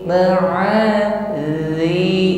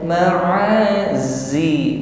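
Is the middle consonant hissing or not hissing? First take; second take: not hissing; hissing. First: The middle consonant is said without a hiss. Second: The middle consonant is a hissing z sound. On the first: The speaker calls it right. "dijaga ketika mengucapkan huruf dal tidak dengan suara desis" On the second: The speaker calls it wrong. "bukan ma'azi"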